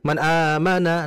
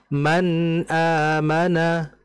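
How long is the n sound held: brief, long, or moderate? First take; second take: brief; moderate. First: The n sound is cut off too quickly. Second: The n sound flows for a moderate length. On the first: The speaker calls it wrong. "itu terlalu cepat" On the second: The speaker calls it right. "Jadi dialirkan, ditahan nunnya sebentar saja"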